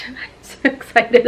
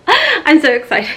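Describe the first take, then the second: First: Quieter, laughing under the breath; hushed, giggling echo; softer giggly repeat. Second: Bright, laughing burst of excitement; excited laugh at full voice; giggly excited. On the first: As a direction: say it again to yourself, hushed and giddy. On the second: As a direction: bubble over with real joy, laugh through it. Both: Real, not acted.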